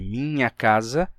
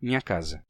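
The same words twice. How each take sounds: First: A palatal nasal consonant joins the i and a. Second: A nasal i runs straight into the a.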